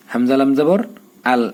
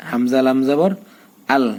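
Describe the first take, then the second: No difference in how they are said.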